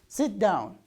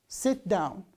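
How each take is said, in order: No difference in how they are said.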